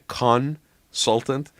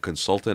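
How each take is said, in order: First: The stress is on the first syllable. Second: The stress is on the second syllable. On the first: The person is a con artist. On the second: An ordinary professional adviser.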